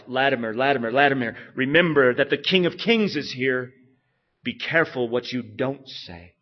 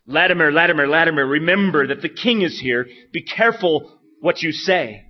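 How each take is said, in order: First: Preacher steeling himself before the king; Latimer to himself. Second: Loud stern royal warning; the king booming a warning at the preacher; King Henry's warning. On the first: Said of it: "Latimer said to himself". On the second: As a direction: warn him like a king, louder. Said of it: "he said to Latimer". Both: Retold or imitated.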